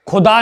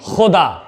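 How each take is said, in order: First: It begins with a plain aspirated k sound. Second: It begins with a raspy throat fricative. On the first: The speaker calls it wrong. "तो ये खुदा नहीं" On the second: The speaker calls it right. "यहां पर यह नुक्ता लगेगा"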